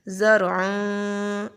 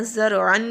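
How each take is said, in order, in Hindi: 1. अंतिम n एक नासिका ध्वनि में छिप जाता है। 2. अंतिम n साफ़ और पूरी तरह बोला जाता है। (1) "आवाज़ को हम लोगों ने छुपा देना है। ज़रअन इस तरह से पढ़ेंगे" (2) "बिल्कुल ऐसे नहीं पढ़ना, ज़रअन नहीं पढ़ना"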